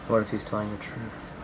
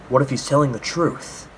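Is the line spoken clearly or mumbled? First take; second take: mumbled; clearly. First: It is mumbled quietly under the breath. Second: It is spoken out fully and clearly. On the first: The character is privately thinking aloud. The speaker calls it right. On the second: The character is openly talking to himself. The speaker calls it wrong.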